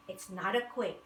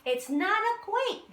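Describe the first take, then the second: First: Said in the usual way. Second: Much higher, louder chorus echo; amazed chorus. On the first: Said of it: "said the two heads". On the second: A narrator's reading. The whole group echoing the moles, high and amazed. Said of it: "they all said".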